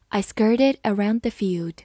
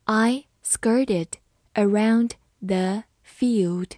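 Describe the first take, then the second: First: Said in the usual way. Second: Slow, broken into separate words; slow reading. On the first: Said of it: "慢读一遍". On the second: Shown as a demonstration. Teacher modelling the example for learners, slow reading. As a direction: read it slowly, pausing between words. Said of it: "好，慢读一遍".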